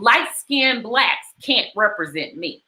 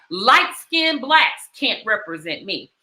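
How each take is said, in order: First: Said in the usual way. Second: "Light skinned blacks can't represent me" said slowly, "light" stressed and falling; slow, weighty repeat. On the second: Shown as a demonstration. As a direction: let each word land, leaning on "light". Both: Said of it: "You hear that?".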